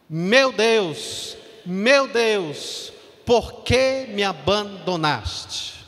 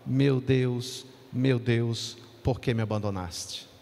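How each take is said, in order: First: It is cried out with anguish and loneliness. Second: It is said flatly, without feeling.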